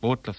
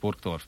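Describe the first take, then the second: First: The name is said in the local dialect form. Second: The name is said in the standard German form. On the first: This is what locals call the town. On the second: This is the town's official name.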